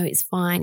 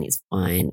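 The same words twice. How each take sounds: First: It's fine lifted higher, lightly brushing it off; Alice, to her boyfriend, high and breezy; light reassurance. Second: It's fine dropped much lower, settling it; Alice, to her boyfriend, low and final; falling reassurance. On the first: Playing Alice, wave it away on a high note. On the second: Playing Alice, close it down low. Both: Retold or imitated. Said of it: "And she's like".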